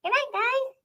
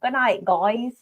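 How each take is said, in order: First: Tiny high-pitched pet voice; Marty. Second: Badly faked Australian accent; attempted Australian accent. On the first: Pretend. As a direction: squeak it out high and soft. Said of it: "that cannot be Marty's voice". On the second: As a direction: try Australian, slipping toward southern. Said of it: "do an Australian accent with Marty".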